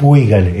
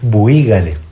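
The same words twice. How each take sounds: First: The stress falls on the U sound. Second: The stress falls on the I sound. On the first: The speaker calls it wrong. "no es buígale" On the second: The speaker calls it right. "Tiene acento en la I"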